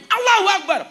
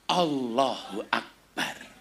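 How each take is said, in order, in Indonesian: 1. Diucapkan keras, dengan nada galak. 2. Diucapkan pelan, dengan nada kagum. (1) "bubar. Melayu" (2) "Sebagai tanda syukur, kan keren"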